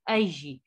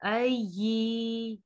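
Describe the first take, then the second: First: The final vowel is kept short. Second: The final vowel is drawn out long. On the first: The speaker calls it right. "ये को हमने खींचना नहीं है" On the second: The speaker calls it wrong. "ऐसे नहीं पढ़ना, अय्यि ऐसे नहीं होगा"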